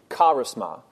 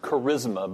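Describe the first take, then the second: First: The word is said the original Greek way. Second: The word is said the common English way. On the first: The speaker calls it right. "but it's really charisma" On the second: The speaker calls it wrong. "We might pronounce it charisma"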